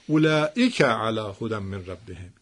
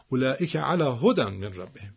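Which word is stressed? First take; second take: اولئک; هدی. First: The stress falls on the word اولئک. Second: The stress falls on the word هدی. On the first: It is these people who are guided by their Lord. "اینا هستن که بر هدایت پروردگارشان هستن" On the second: It is guidance that these people are upon. "بخوام تأکید کنم روی بحث چی؟ هدایت"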